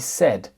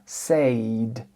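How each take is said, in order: First: The vowel is a short single vowel sound. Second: The vowel glides like a diphthong, as in say. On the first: The speaker calls it right. "on dit said" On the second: The speaker calls it wrong. "mais on ne dit pas said"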